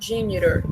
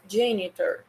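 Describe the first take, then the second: First: The t sounds like a quick r. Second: The t is a clear t sound. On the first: "no inglês americano, eles falam como se esse T... tivesse um som de R" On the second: "No inglês britânico... eles falam mais com esse sonzinho de T mesmo"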